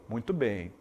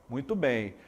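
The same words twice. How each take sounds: The two takes are said the same way.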